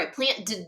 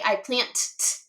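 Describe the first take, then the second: First: The ending is a plain d sound. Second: The ending is a plain t sound. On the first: "or I plant d" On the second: "we wouldn't say I plant t"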